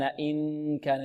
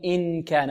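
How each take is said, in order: First: إن كان soft and slow, the n nasal; correct hidden n. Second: إن كان with the n fully pronounced by the tongue tip; wrong clear n. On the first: Teacher modelling correct nasal ikhfaa. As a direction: hide the n in the nose, softly. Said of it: "لا نلصق طرف اللسان". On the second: Teacher showing a common mistake in ikhfaa. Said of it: "لا نقول". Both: Shown as a demonstration.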